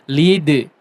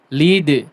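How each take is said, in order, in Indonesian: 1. d terakhir memantul keluar dengan aliran udara terbuka. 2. d terakhir memantul keluar dengan aliran udara terbuka.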